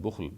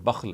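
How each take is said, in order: First: "bukhl" with a u vowel; variant pronunciation bukhl. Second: "bakhl" with an a vowel; variant pronunciation bakhl. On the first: Giving viewers an example of variant readings, "bukhl" with a u. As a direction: say "bukhl", first vowel a rounded u. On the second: Giving viewers an example of variant readings, "bakhl" with an a. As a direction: say "bakhl", first vowel an open a. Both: Shown as a demonstration. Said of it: "both are the pronunciations".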